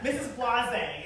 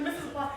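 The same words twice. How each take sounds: First: "Missus Blase" drawn out slowly, "Blase" said as blah-ZAY; a slow, unsure guess at "Missus Blase"; made-up name. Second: "Missus Blase" said quickly, "Blase" as blahz, pitched higher; a quick, higher blurt of "Missus Blase"; made-up name. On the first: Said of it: "I was like". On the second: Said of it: "It's like". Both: Retold or imitated.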